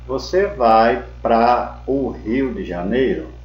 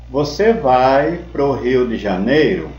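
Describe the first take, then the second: First: The preposition and article are said as separate words. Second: The preposition and article merge into one short syllable. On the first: "em vez de você falar" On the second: "Pra mais O é igual à contração pró"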